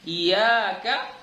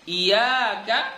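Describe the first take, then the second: The two takes are said the same way.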